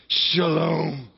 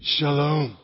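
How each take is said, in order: First: Shalom like cool water rushing over you; refreshed shalom. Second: Said in the usual way. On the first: Shown as a demonstration. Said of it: "like you really wanna be refreshed". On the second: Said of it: "Say it".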